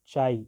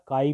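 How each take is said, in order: First: The word begins with a 'ch' sound. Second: The word begins with a 'k' sound. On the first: "चाई या काई भी" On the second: "मैं तो इसको pronounce करता हूँ काई"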